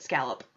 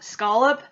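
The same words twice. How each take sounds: First: "scallop" with the vowel of cat, SKAL-up; "scallop" with a short A as in pal; habitual scallop. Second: "scallop" with an AH vowel, SKAH-lup; "scallop" opened with a broad SKAH; supposedly correct scallop. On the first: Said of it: "I always have just called it scallop". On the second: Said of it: "it's supposed to be pronounced scallop". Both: Shown as a demonstration.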